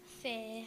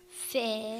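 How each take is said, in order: First: The word is said quietly. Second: The word is said loudly.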